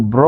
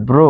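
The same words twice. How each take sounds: First: ব্র with open "aw", as "braw"; open vowel. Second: ব্র said "bro" with rounded o; closed o. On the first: (ব্র, খোলা অ দিয়ে) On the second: (ব্র উচ্চারণ ব্রো) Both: Shown as a demonstration. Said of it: "ব্র হচ্ছে ব্র".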